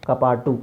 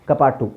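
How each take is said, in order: Both takes have the same delivery.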